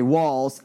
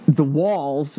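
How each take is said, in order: First: Said in the usual way. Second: Long Island accent. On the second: Real, not acted. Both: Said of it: "I said walls in a Long Island accent".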